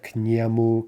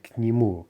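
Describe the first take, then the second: First: К нему with a full open e, "нЭму"; к нему, unreduced е; wrong unreduced vowel. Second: К нему with the е reduced toward i, "нИму"; reduced vowel. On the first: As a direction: say к нему with the е kept as a clear eh. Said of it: "It's not к нему ... but к нему". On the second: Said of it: "but к нему". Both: Shown as a demonstration.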